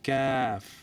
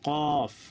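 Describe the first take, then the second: First: The letter name is said with a light sound. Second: The letter name is said with a heavy sound. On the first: The speaker calls it right. "হালকাভাবে ক্যাফ" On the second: The speaker calls it wrong. "অনেকে কফ কফ না"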